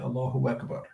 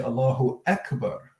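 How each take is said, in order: First: A w sound links Allahu into Akbar. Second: Akbar starts cleanly with no w sound. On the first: The speaker calls it wrong. "that's not going to be valid if you say Allahu Akbar" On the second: The speaker calls it right. "You need to say Allahu Akbar. Eh, not wa"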